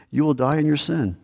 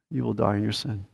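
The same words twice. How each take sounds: First: Said in the usual way. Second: "You will die in your sin." repeated much softer, a grave hush; quiet echo. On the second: Acted. Preacher repeats the warning to listeners as a soft, grave echo.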